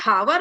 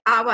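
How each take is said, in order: First: The word begins with an h sound. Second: The word begins with a vowel sound. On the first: The speaker calls it wrong. "हावर नहीं बोलते" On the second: The speaker calls it right. "आवर है ना"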